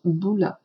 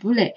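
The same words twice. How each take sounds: First: The word ends without any s sound. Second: A final s sound is pronounced at the end. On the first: The speaker calls it right. "它是不发音的，就读boule" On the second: The speaker calls it wrong. "我在打卡当中有听到同学们会读成boule"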